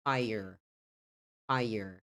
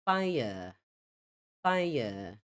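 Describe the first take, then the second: First: American "fire" with a clear r; American pronunciation. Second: British "fire" with silent r; non-rhotic British fire; British pronunciation. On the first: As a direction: say fire as "FY-er", r fully sounded. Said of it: "Bem pronunciado o som do R". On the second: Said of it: "você ouviria no inglês britânico". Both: Shown as a demonstration.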